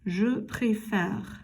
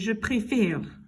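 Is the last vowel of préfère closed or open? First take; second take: open; closed. First: The final vowel sounds like an open è. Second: The final vowel sounds like a closed é. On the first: The speaker calls it right. "the pronunciation changes. ... It's a whole lot easier to say" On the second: The speaker calls it wrong. "it's really hard to say je préfère. It's awful and it doesn't flow well"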